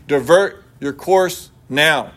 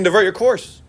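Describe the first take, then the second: First: Slow, drawn-out command, each word set apart; stern captain's order. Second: Said in the usual way. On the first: Acted. Navy captain warns the lighthouse, slow stern command. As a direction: lay down the order slowly like an officer who expects obedience. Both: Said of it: "Voice one".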